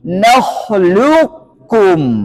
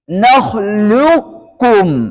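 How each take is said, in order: The two takes are said the same way.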